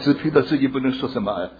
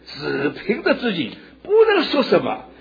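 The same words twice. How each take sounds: First: It is said in a pitiful, self-pitying tone. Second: It is said in a proud, glorious tone. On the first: The speaker is helpless and to be pitied. The speaker calls it wrong. "主不是很可怜，哦" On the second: The speaker submits willingly and with honor. The speaker calls it right. "主是很光荣地说"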